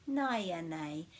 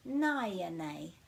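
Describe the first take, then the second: First: Said in the usual way. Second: Naya nei drawn out slowly, vowel by vowel; slow model word. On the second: Shown as a demonstration. Teacher slowing naya nei down so learners can copy. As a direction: spell it out slowly, every vowel broken. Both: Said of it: "break it at every vowel".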